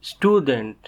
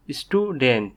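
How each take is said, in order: First: Said in the usual way. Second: "student" in two beats, stu, dent; split into syllables. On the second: Shown as a demonstration. Teacher showing learners the two syllables, "student" split in two. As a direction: say "student" with a small break after stu. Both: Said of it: "each of these words has two syllables".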